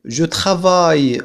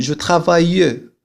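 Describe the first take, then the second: First: "je travaille" ending on the y sound, final e silent; correct pronunciation. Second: "je travaille" with an extra e at the end, "travai-ye"; mock mistake, sound the final e of "travaille"; wrong pronunciation. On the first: Teacher showing students the right form with a silent e. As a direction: cut "travaille" off after the y, nothing after it. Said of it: "أقول je travaille ولا". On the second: Teacher showing students the common mistake, final e pronounced. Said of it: "ولا أقول je travaille". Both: Shown as a demonstration.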